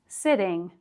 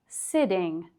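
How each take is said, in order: No difference in how they are said.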